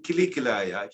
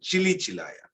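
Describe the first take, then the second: First: The words begin with a hard k sound. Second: The words begin with a ch sound. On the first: The speaker calls it right. "Instead of saying Kili Kilaya" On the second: The speaker calls it wrong. "he was saying Chili Chilaya"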